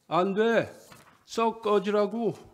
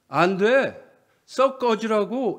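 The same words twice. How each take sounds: First: The line is said weakly and without force. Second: The line is said loudly and forcefully. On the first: The actor cannot bring himself to say it boldly. The speaker calls it wrong. "힘없이 대사를 외웁니다" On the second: This is how the line should be delivered. The speaker calls it right. "이렇게 해야 되는데"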